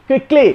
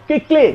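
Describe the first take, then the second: No difference in how they are said.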